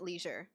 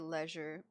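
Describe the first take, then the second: First: The word is said in a plain, everyday way. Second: The word is said in a fancy, posh way. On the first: "I usually pronounce it leisure" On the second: "I love it when they say leisure. It sounds so fancy"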